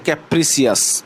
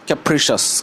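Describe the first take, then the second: First: The word ends with a separate 'see-us' sound. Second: The word ends with a single 'shus' sound. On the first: The speaker calls it wrong. "অনেকে এটা উচ্চারণ করবে এইভাবে যে ক্যাপ্রিসিয়াস, এইভাবে কিন্তু উচ্চারণ না" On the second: The speaker calls it right. "এখানে লেখা আছে যে ক্যাপ্রিশাস"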